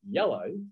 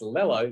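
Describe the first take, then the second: First: The word begins with a Y sound. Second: The word begins with an L sound. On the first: The speaker calls it right. "not yellow" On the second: The speaker calls it wrong. "your child is saying that's lello"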